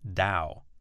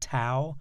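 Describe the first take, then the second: First: The word begins with a D sound. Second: The word begins with a T sound. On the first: The speaker calls it right. "the correct pronunciation is D as in dog" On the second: The speaker calls it wrong. "often pronounced Tao"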